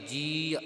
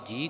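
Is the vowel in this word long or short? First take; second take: long; short. First: The vowel is slightly stretched and drawn out. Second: The vowel is short and not drawn out. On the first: The speaker calls it right. "ਥੋੜਾ ਜਿਹਾ ਪਾਠ ਖਿੱਚ ਕਰਕੇ ਜੀ ਉਚਾਰਨ ਕਰਨਾ ਹੈ" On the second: The speaker calls it wrong. "ਜੇ ਕੱਲੀ ਜੱਜੇ ਨੂੰ ਬਿਹਾਰੀ ਹੁੰਦੀ ਆਪਾਂ ਪਾਠ ਜੀ ਕਰਨਾ ਸੀ"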